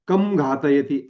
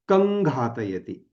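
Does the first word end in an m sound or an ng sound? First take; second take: m; ng. First: The first word ends with an m sound. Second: The first word ends with a nasal ng sound. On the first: The speaker calls it wrong. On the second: The speaker calls it right.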